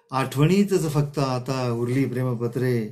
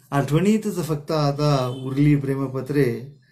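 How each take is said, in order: Both takes have the same delivery.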